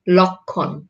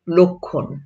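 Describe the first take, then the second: First: লক্ষণ with an open ɔ first vowel; লক্ষণ read as spelled, lɔkkhɔn; read as written. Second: লক্ষণ with an o first vowel, lokkhon; লক্ষণ said the spoken way; spoken pronunciation. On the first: (লক্ষণ লিখিত রূপে) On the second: (লক্ষণ ও-কারের মতো উচ্চারণে) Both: Shown as a demonstration. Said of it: "যদি ক্ষীয় থাকে তাহলে".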